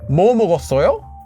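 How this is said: The first word carries the emphasis. It asks what was eaten. "if you want it to mean its question word, emphasize the question word"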